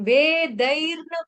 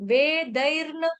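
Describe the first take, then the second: No difference in how they are said.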